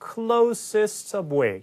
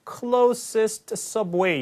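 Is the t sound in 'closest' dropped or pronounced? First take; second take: dropped; pronounced. First: The t at the end of closest is dropped. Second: The t at the end of closest is pronounced. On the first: The speaker calls it right. "T 발음이 아예 안 들리는 것처럼" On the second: The speaker calls it wrong. "closest subway 이렇게 하라는 게 아니라"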